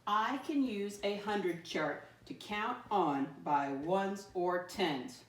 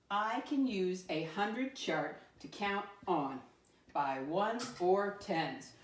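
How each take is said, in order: First: Slow, read together with the class; slow unison read-along; slow choral reading. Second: Slow, deliberate reading of the statement; slow teacher read-aloud. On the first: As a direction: lead the class through it slowly. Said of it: "Read it with me again". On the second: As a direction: read it slowly so the class can follow along. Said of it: "let me read our I can statement". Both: Shown as a demonstration.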